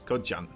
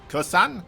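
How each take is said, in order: First: The name is said with a j sound. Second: The name is said with an s sound. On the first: The speaker calls it right. "We don't really have a sound for, for the Z, so Jan" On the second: The speaker calls it wrong. "just to use the S then"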